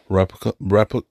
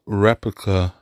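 First: Tripping over the word "Replica", cut off at "repli-"; tongue-tied stumble. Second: Said in the usual way. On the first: Real, not acted. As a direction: fumble "Replica" and break off midway through "repli-". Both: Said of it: "I can't even say it".

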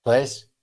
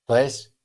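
No difference in how they are said.

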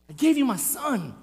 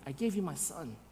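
First: "son" stressed in full voice; firm, pointed declaration landing on "son"; emphatic repeat. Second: Low, very soft and grave; quiet, solemn divine answer; hushed reply. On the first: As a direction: drive home "son" firmly. God's answer repeated with force. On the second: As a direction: say it almost under the breath. God's answer, first said quietly. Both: Acted.

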